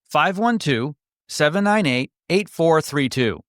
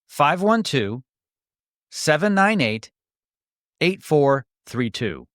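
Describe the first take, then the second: First: The number is read at normal speed. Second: The number is read more slowly.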